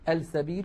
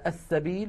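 First: The article's l is clearly pronounced before s. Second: The article's l merges into the following s. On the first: The speaker calls it wrong. "ولا نقول" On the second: The speaker calls it right. "كانت العرب تدغم لام التعريف فيها"

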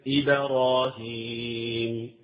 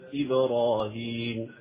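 First: The bounce on the b leans toward a. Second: The bounce on the b leans toward neither vowel. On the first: The speaker calls it wrong. "يميل إلى ماذا؟ إلى الفتح" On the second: The speaker calls it right. "لا هي إلى الكسر ولا هي إلى الفتح"

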